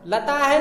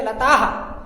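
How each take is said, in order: First: "लता है" ending in a full hai; wrong visarga. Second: "लताह" with long aa echoed as haa; correct visarga. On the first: Teacher contrasting the student error, mispronounced demonstration. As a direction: say "लता है" as lataa-hai, the mistaken way. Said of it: "नहीं पढ़ेंगे". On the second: Teacher correcting the student error, pronounced demonstration. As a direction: say "लताह" as lataa-ha, not lataa-hai. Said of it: "इसको पढ़ेंगे". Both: Shown as a demonstration.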